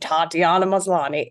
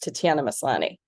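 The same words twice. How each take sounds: First: The A vowels are wide open and drawn out. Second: The A vowels are short and less open. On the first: The speaker calls it wrong. "You said it very American. Like, ... Americans like to open up those A's in a big, beautiful vowel sound" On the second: The speaker calls it right. "but in Canada, or is the in the way it's supposed to be pronounced"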